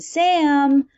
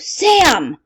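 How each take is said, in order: First: The name is said in a calm, gentle voice. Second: The name is called out loudly and angrily. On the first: The caller is not upset. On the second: The caller is upset and wants an immediate response.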